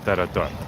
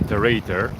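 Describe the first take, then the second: First: It is pronounced the native Bulgarian way. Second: It is pronounced the way English readers say it. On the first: The speaker calls it right. "the right pronunciation is tarator" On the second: The speaker calls it wrong. "especially English speaking people, when they read tarator, they say tarator"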